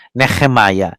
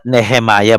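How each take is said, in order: First: Nehemiah with a rough throaty h, like nekh-e-miah; guttural h. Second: Said in the usual way. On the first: Shown as a demonstration. Teacher contrasting English and Hebrew Nehemiah, guttural h. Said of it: "but Nehemiah". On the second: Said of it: "Not Nehemiah".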